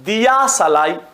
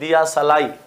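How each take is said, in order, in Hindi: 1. 'diya' का पहला स्वर दीर्घ है। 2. 'diya' का पहला स्वर छोटा है। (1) "दिया की जगह पे इसको भी हम दीर्घ बोल देते हैं" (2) "दिया सलाई बोलते भी हैं"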